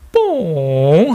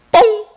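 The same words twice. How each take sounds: First: Dainty fart noise. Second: Very high, abrupt imitated pop; one quick, concise mock toot; short fart noise. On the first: Acted. Seoul girlfriend farting beside her boyfriend, very daintily. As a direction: imitate a gentle little fart, stretched out. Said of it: "아주 살포시". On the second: Gyeongsang woman farting beside her man, short and concise. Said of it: "아주 짧고 간결하게".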